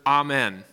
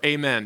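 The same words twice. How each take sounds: First: Amen said as AH-men, open ah at the start. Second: Amen said as AY-men, ay sound at the start. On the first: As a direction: say amen as ah-men, first vowel like father. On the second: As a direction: say amen as ay-men, first vowel like day. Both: Shown as a demonstration. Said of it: "depending on how you pronounce it".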